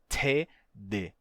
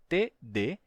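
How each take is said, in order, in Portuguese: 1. O T tem sopro de ar. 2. O T não tem sopro de ar. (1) "e não T D" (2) "Nenhum dos dois tem aspiração. É T D"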